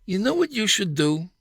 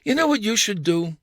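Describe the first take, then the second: First: Lucy's bossy advice. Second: Wife's bossy advice. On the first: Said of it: "Her suggestions began". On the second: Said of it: "the Lucy side of you-know-who appeared". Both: Retold or imitated.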